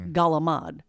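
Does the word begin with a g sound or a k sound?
g sound. It begins with g and drops the final vowel. This is the southern dialect form. "they change their C's into G's and they cut the ends off"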